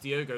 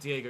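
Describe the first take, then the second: First: The name is said with an 'oh' vowel. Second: The name is said with an 'ee' vowel. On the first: The speaker calls it right. "it's Diogo Leite" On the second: The speaker calls it wrong. "It's not Diego"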